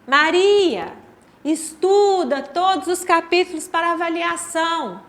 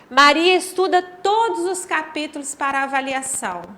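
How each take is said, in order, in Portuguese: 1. Há uma pausa curta depois da primeira palavra. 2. Não há pausa depois da primeira palavra. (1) "agora com a vírgula" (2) "a primeira"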